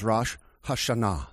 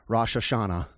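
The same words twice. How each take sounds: First: It is said with a Hebrew pronunciation. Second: It is said with an American English pronunciation. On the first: "but in the Hebrew, it is" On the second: "most Americans pronounce it"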